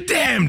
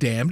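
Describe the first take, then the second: First: The word is said loudly and forcefully. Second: The word is said at normal volume. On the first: The speaker calls it right. "the correct way to pronounce that is with damned all in caps" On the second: The speaker calls it wrong. "It's not damned"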